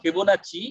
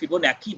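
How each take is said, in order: First: The last consonant is pronounced as 'ch'. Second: The last consonant is pronounced as 'k'. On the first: "আমি ফিবোনাচি বলতে ভালোবাসি" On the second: "অনেকে ফিবোনাকি বলে"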